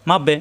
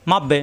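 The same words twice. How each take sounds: The two takes are said the same way.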